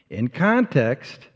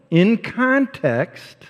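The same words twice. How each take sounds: First: "in context" repeated lower and slow, falling on "context". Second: "In context" said high and very slow, stressing "In"; emphatic stress. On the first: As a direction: settle down into "in context". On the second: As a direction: stretch out "In context" with a lifted start. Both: Shown as a demonstration.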